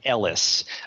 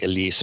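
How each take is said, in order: First: The name is said like 'Ellis'. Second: The name is said like 'Elise'. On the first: The speaker calls it right. "It's Rick Ellis, even though it's spelled E-L-I-C-E" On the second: The speaker calls it wrong. "a lot of people might say Elise, but that is his name"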